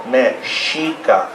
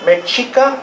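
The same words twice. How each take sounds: First: Mexica slowly as me-SHEE-ka; correct pronunciation. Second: Mexica as a high, questioning me-CHEE-ka; mistaken pronunciation. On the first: Teacher corrects the name, slow Mexica with sh. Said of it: "we want you to say that". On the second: Teacher mimics the wrong Mexica, high with a ch. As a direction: say Mexica with a hard ch, pitched up like a query. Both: Shown as a demonstration.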